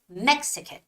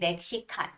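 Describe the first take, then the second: First: The stress is on the first syllable. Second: All syllables are said evenly without stress. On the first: The speaker calls it right. "the stress of the word Mexican is is on E" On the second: The speaker calls it wrong. "in Korean, we would say Mexican"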